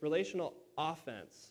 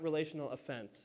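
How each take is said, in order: First: The stress is on the first syllable of offense. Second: The stress is on the second syllable of offense. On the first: It means an active effort, the opposite of defense. The speaker calls it right. "not just defense" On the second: It means causing someone to feel offended. The speaker calls it wrong. "It's not relational offense"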